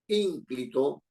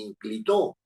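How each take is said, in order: First: The stress is on the first syllable. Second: The stress is on the third syllable. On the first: The speaker calls it right. "está en la anterior a la penúltima" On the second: The speaker calls it wrong. "ni inclitó"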